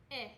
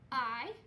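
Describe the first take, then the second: First: "I" as a brief short vowel, ih; short vowel sound. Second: "I" said as its long letter name, eye. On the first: Teacher reviewing vowel sounds with pupils, "I" as short ih. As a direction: say "I" as ih, like the start of igloo. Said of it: "and then the sound". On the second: Teacher showing pupils a flashcard, "I" as the letter name eye. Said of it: "we're gonna say the letter name". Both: Shown as a demonstration.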